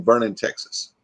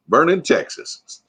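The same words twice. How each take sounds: First: Said in the usual way. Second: Slow, higher Texas accent on Vernon, Texas, with a rise at the end; a light mock Texas accent; Texas drawl. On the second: Shown as a demonstration. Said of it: "Let me hear your best Texas accent".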